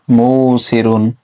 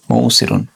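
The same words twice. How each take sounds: First: মৌসিরুন stretched out very slowly, syllable by syllable; slow demo word. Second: Said in the usual way. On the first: Shown as a demonstration. Teacher modelling the changed word for students, very slow. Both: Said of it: "আশা করি এটা বুঝেছেন".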